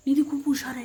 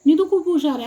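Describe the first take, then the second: First: Put-on softer, gently modelling निधी खूप हुशार आहे for the child; soft coaxing prompt. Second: Said in the usual way. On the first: Shown as a demonstration. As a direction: softly show the child what to say, stressing निधी. (हळू, प्रेमळ आवाजात मुलीला शिकवत) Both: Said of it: "हे बघ".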